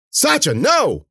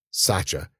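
First: High, loud warning; alarmed cry. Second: Said in the usual way. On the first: A narrator's reading. Cece calling her dog off, crying out. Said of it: "Cece cried".

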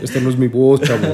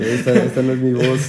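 First: Sultry, seductive voice, louder, breaking into laughter; hammed-up femme fatale; sensual voice. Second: Sensual voice. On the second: Pretend. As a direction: play a femme fatale, half laughing. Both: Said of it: "Ahorita anda con voz sensual".

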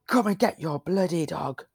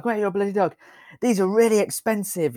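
First: Mild imitation of a yelling farmer, higher; half-hearted shout of an angry farmer. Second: Much higher mock yell of an angry farmer. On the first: Retelling the farmer on the quad bike, mild mock yell. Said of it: "You should dramatize that a little bit better". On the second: Redoing the farmer's shout after being asked, hammed-up yell. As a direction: ham up the farmer bellowing at them. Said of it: "this was very loud".

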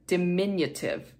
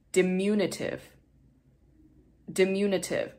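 First: "diminutive" said dih-MIN-yuh-tiv, MIN stressed; correct pronunciation. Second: "diminutive" said as dim-YOO-nuh-tiv; wrong pronunciation. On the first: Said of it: "is how to pronounce that". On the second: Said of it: "I've been mispronouncing this word". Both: Shown as a demonstration.

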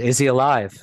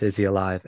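First: Higher, louder retold urgent question; mildly alarmed, retelling an anxious question. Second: Said in the usual way. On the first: Son asks mom if dad is alive, retold urgent question.

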